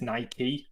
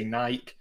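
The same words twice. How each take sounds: First: Nike said as NY-kee; two-syllable Nike. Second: Nike said as "nyke", silent e; Nike without the final ee; one-syllable Nike. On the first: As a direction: say "Nike" ending in a long ee. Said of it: "I don't know how you pronounce it". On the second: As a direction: say "Nike" to rhyme with bike. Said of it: "I say Nike". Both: Shown as a demonstration.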